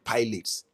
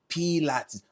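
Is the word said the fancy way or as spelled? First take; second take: as spelled; fancy. First: The word is said just as spelled. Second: The word is said the fancy, accepted way. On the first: The speaker is not fancy enough. The speaker calls it wrong. "pronounce it out and call it pilates" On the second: This is the accepted way to say it. The speaker calls it right. "Velvet said it's called Pilates"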